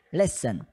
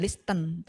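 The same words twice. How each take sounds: First: "listen" said as "lesen", silent t; right way. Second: "listen" said wrongly with a sounded t, "lis-tent"; "listen" with t pronounced, the mistake. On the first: ("listen" diucapkan benar tanpa bunyi t) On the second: ("listen" diucapkan salah dengan bunyi t) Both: Shown as a demonstration. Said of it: "bukan listen, tapi listen".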